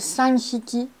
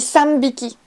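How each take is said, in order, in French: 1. Le compteur commence par un son h. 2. Le compteur commence par un son b. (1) "faites bien attention à pas dire" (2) "on dit sambiki"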